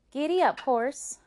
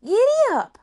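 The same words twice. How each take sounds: First: Raised, loud command, less wild; calling to horse. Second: Very high, loud holler; calling to horse. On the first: Rose with the reins starting the horse, confident call. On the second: Rose urging the horse to go, loud high call. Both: Acted.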